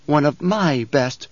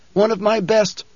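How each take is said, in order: First: One of my best, slow, my weighted; stress on MY. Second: Said in the usual way. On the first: Acted. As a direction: lean hard on my in One of my best. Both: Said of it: "she corrected him".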